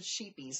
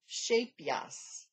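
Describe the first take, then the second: First: The first syllable sounds like 'sheep'. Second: The first syllable sounds like 'shape'. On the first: The speaker calls it wrong. "I called it sheepies last week" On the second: The speaker calls it right. "now I will try to pronounce this one right"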